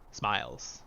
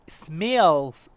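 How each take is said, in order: First: The vowel sounds like 'eye' in smile. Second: The vowel sounds like 'eh' in smell. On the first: The speaker calls it right. "I'm gonna go with the I sound" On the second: The speaker calls it wrong. "sounds weird"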